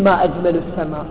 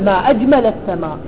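First: It is said as a question asking something. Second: It is said as an exclamation of wonder. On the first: What is the most beautiful thing in the sky? The speaker calls it wrong. "لا تقولين ما أجمل السماء" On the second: The sky is marvelously beautiful. The speaker calls it right. "كأذا تتعجبين قولي ما أجمل السماء"

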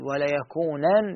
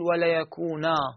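First: The word ends with an n sound. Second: The word ends with a long a vowel. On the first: It follows the original form of the emphatic nun. "بالنون" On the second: It follows the written spelling of the text. "بالألف"

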